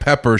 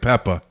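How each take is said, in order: First: The final R sound is clearly pronounced. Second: The final R sound is dropped entirely. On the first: The speaker calls it right. "instead of like pepper" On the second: The speaker calls it wrong. "she leaves the R off"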